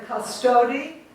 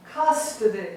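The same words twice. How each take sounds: First: Cus-TO-dy, long o, rising end; wrong middle-syllable stress. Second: CUS-to-dy, falling away after CUS; correct first-syllable stress. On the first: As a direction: shift the stress of custody onto its middle. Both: Shown as a demonstration. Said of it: "We don't say custody".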